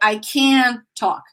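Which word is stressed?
can. The stress falls on the word can. The speaker calls it wrong.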